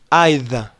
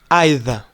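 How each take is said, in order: First: It is pronounced with a British accent. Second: It is pronounced with a British accent.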